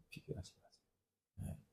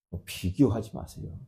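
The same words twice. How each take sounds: First: 비교하지 마세요 breathed in a whisper; a whispered echo of the advice; whispered repeat. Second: Said in the usual way. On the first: Shown as a demonstration. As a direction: lean in and whisper it. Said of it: "repeated advice, whispered". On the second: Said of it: "repeated advice, second whispered".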